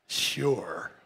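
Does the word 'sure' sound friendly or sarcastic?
sarcastic. The word sounds sarcastic and dismissive. The speaker does not really agree. The speaker calls it wrong.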